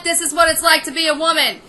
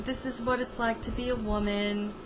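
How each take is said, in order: First: Fed-up scolding. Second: Softer, gentle motherly voice on "This is what it's like to be a woman"; hushed, tender old-school mother; soothing sixties mother. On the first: Real, not acted. Ranting at Kim directly. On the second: Retold or imitated. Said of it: "if this was a mother in the nineteen sixties".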